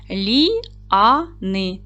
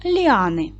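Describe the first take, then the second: First: Ліани in three separate syllables, Лі-а-ни; split into syllables. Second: Said in the usual way. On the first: Shown as a demonstration. Teacher showing pupils the three syllables, Лі-а-ни said separately. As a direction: break ліани apart syllable by syllable, with pauses. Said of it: "в слові ліани три склади". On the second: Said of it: "зробіть звуковий аналіз цього слова".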